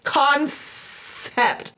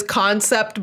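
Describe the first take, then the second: First: "concept" split slowly, with a long hissed S in the middle. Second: Said in the usual way. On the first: Shown as a demonstration. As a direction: stretch the S in "concept", as in con-sssept. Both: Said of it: "It literally is spelled with an S".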